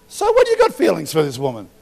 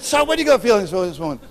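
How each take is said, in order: First: Loud retort. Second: High, loud and fast repeat; loud, fast retort. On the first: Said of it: "And I'm like". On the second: Preacher repeats his challenge to the neighbour, fast and loud. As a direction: fire the question back harder. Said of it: "I said". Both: Retold or imitated.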